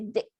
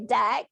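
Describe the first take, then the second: First: The vowel is raised toward an i sound. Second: The vowel is a standard open e sound. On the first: "they say dick" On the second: "They don't say deck"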